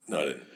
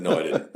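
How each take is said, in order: First: Low, soft under-the-breath denial; muttered denial. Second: Higher, indignant protest; protesting denial. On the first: Officer on the stand muttering a quiet denial. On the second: Officer on the stand protesting higher to the jury. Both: Retold or imitated. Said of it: "You're looking at the jury like".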